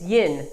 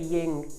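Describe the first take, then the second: First: The word ends with an 'n' sound. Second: The word ends with an 'ng' sound. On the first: The speaker calls it right. "It's yin, Y I N" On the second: The speaker calls it wrong. "A lot of people pronounce it wrong too. They say ying, ying with a G"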